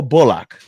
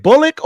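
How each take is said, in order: First: "Bullock" said BULL-ock, ending like lock; full lock ending. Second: "Bullock" said BULL-ick; unstressed ick ending. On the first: Host offering the other option, "Bullock" as BULL-lock. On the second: Host asking which name is right, "Bullock" as BULL-ick. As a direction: say "Bullock" with a short ick at the end. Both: Shown as a demonstration. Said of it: "is it Bullock or Bullock".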